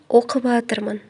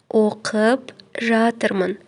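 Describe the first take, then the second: First: The words are run together into one shortened word. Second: Both words are said fully and separately. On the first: The speaker calls it wrong. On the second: The speaker calls it right.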